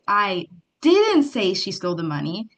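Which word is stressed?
didn't. The stress falls on the word didn't. The claim is denied outright. "means you're denying it outright"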